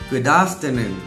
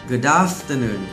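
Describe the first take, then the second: Both takes have the same delivery.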